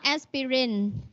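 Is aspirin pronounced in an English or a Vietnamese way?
Vietnamese. It is pronounced the Vietnamese way. The speaker calls it wrong.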